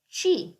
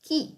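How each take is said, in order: First: The word starts with a soft CH sound. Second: The word starts with a hard K sound. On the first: "it would be pronounced without the H, chi" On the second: "C followed by the H and then an I, it gets pronounced chi"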